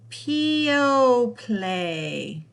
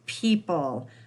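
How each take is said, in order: First: The word is sounded out ending in 'play'. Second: The word is said normally ending in 'pull'. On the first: The speaker calls it wrong. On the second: The speaker calls it right.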